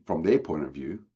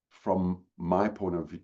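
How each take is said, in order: First: "their" stressed with a rising tune; "their" lifted and leaned on. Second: "my" leaned on and drawn out, slow; "my" stressed, slowly. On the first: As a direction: set "their" against "my". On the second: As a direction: weigh the word "my" against "their". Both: Shown as a demonstration.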